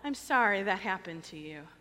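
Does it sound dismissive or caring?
dismissive. It sounds quick and dismissive.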